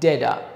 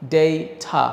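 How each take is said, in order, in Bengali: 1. এটা আমেরিকান উচ্চারণে বলা হয়েছে, t, d-এর মতো। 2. এটা ব্রিটিশ উচ্চারণে বলা হয়েছে। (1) "আমেরিকানরা ঠয়ের জায়গায় ড দিয়ে বলে" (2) "এটার উচ্চারণ হচ্ছে ডেইটা"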